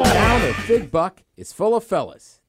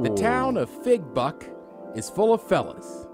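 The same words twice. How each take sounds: First: It is said quickly. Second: It is said at a normal pace.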